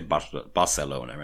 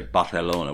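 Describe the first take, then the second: First: The word is said with a Catalan pronunciation. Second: The word is said with a Castilian pronunciation. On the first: The speaker calls it right. "in Catalonia they say Barcelona anyway" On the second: The speaker calls it wrong. "which is wrong"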